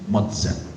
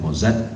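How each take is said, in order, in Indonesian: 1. Konsonan tengahnya terdengar seperti ts. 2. Konsonan tengahnya terdengar seperti z biasa. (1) "bacanya Mozart" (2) "Tulisannya Mozart"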